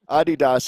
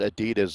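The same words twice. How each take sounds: First: It is said the way most of the world says it. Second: It is said the way Americans say it. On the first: "is what you would hear, I think, just about anywhere else in the world" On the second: "is what you hear in America"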